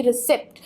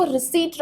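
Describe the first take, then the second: First: रिसिप्ट with an audible p; wrong pronunciation. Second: रिसीट with silent p; right pronunciation. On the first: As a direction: show the mistaken रिसिप्ट, "sipt" at the end. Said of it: "ना कि रिसिप्ट". (रिसिप्ट का गलत उच्चारण, "प" के साथ) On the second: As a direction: model रिसीट with long "ee", no p. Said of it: "पी sound यहाँ पे बिल्कुल भी नहीं आएगा". (रिसीट का सही उच्चारण, "प" मौन) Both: Shown as a demonstration.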